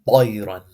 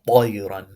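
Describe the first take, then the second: First: The first consonant is heavy and full. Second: The first consonant is heavy and full.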